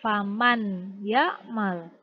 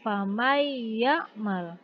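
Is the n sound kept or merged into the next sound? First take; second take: kept; merged. First: The n sound is pronounced clearly before y. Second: The n sound merges into a doubled y. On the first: The speaker calls it wrong. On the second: The speaker calls it right. "nun matinya dileburkan"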